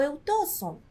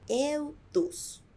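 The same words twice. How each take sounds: First: "eu tosso" with o, then rejected; "eu tosso" as the mistake; wrong form. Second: "Eu tosso" said as tusso, with u, slowly; slow and clear "Eu tosso" as tusso, the correct form. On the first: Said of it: "Não, vamos transformar a letra O em U". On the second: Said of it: "vamos transformar a letra O em U". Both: Shown as a demonstration.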